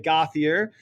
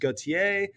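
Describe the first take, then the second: First: The name is said with an American English pronunciation. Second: The name is said with a standard French pronunciation. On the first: "normally in New Hampshire, people will say Gauthier, and this hurts my heart" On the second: "the French pronunciation is Gautier"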